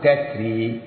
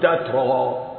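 First: The final vowel is tilted toward 'e'. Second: The final vowel is a plain open 'a'. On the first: The ending is treated as an added suffix. "تنوين للإلحاق ينفع فيه العوض نقول تتري" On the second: The ending is treated as part of the root. "إن كان التنوين ده مصدر يعني أصلي نقول تترا"

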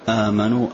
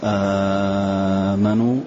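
First: The first vowel is held medium length. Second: The first vowel is held very long. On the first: "توسط" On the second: "مد"

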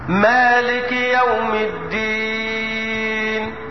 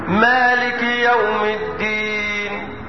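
First: The final long vowel is held moderately, four counts. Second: The final long vowel is held briefly, two counts. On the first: "توسط اربعة" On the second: "قصر حركتين"

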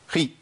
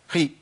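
No difference in how they are said.

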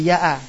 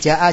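First: The word begins with a y sound. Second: The word begins with a j sound. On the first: This is the colloquial dialect form. "Jin jadi ya" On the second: This is the standard literary form. "Kayak misalnya ja'a jadi ya'a"

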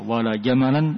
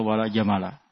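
First: The last word ends in -an. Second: The last word ends in -a. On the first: The noun is put in the accusative case. The speaker calls it wrong. "ini salah. Tidak benar. Tidak bisa dimansub" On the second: The noun takes the general negation form. The speaker calls it right. "Hanya bisa dua"

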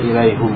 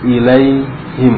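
First: The last syllable has a 'u' vowel. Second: The last syllable has an 'i' vowel. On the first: The speaker calls it wrong. "Enggak boleh ilaihum" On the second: The speaker calls it right. "dibaca him itu menyesuaikan dengan ya"

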